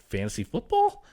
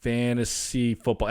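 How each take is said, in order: First: Higher, rising FOOTBALL as a baffled question; imitated clueless question. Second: Slow, drawn-out FANTASY FOOTBALL; imitated cluelessness. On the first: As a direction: mimic a wife with no clue asking. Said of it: "Anything she has no clue about, she just says". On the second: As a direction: sound out an unfamiliar term slowly, as a puzzled wife. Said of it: "Anything she has no clue about".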